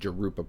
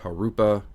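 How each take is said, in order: First: It starts with an English J sound. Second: It starts with a Spanish H-like sound. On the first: The speaker calls it wrong. "I've been mispronouncing it" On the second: The speaker calls it right. "It's a Spanish J"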